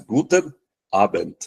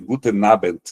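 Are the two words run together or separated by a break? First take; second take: separated; run together. First: A clean break comes before the next vowel. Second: The final n runs straight into the next vowel. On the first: The speaker calls it right. "tem que fazer a cisura" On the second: The speaker calls it wrong. "Eu não posso fazer Guten Abend, jamais"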